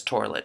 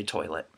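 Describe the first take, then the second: First: "toilet" with an R for the I, torlet; dad's "toilet". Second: Said in the usual way. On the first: Retold or imitated. Mocking dad's pronunciation, "toilet" as torlet. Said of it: "He says toilet". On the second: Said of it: "but I say toilet".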